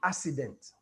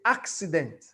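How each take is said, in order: First: The double C is said without a K sound. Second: The double C is said with a K sound. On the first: The speaker calls it wrong. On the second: The speaker calls it right. "you even say"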